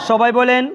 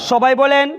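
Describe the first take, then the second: The two takes are said the same way.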